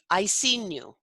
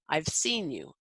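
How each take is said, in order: First: The V sound before 'seen' is dropped. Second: A clear V sound comes before 'seen'. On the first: The speaker calls it wrong. "they tend to say things like" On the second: The speaker calls it right. "to pronounce the V, that you are your upper teeth are on your lower lip"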